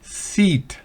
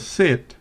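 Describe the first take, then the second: First: The vowel is long, like in seat. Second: The vowel is short, like in sit. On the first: The speaker calls it wrong. "no es sit" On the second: The speaker calls it right. "sino sit"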